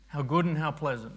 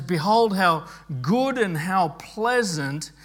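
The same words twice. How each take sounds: First: Quick, softer throwaway reading; casual skim. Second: Mildly impassioned scripture reading; enthusiastic exclamation. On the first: Shown as a demonstration. Preacher showing how readers glance through the verse, casual and quick. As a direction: glance over it as nothing special. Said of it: "we sort of casually go over it". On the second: Acted. Preacher quoting David's joy in unity, mildly enthusiastic. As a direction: give each phrase some joyful weight. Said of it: "There's something enthusiastic about what David is, is saying".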